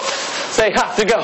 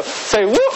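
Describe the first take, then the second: First: Cheerleader call, drawn out. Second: Cheerleader call. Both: Acted. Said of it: "Ohio State cheerleader uniform".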